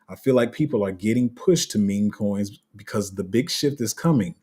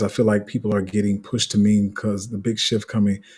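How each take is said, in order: First: It is said slowly and clearly. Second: It is said fast and mumbled.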